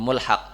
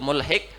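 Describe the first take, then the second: First: The second syllable has an 'a' vowel. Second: The second syllable has an 'i' vowel. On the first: This is a less common reading some scholars give. "yuqal bi fathiha" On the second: This is the well-known reading. "bi kasril ha alal masyhur"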